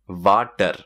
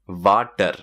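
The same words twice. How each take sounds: First: It is said in an Indian accent. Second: The same.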